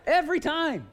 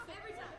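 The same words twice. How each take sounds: First: Loud, high, emphatic outburst; comic exasperation at full voice; exasperated exclamation. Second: Very soft, whispery aside; barely audible admission; hushed punchline. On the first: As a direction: belt out the punchline. Punchline repeated with great emphasis. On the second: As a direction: drop it almost to nothing. Punchline said softly, then shouted. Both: Real, not acted.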